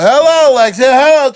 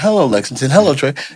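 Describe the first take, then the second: First: It is said much louder, almost shouted. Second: It is said at a normal, quiet volume.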